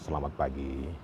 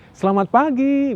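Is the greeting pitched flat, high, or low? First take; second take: low; high. First: It is said in a low pitch. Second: It is said in a high pitch.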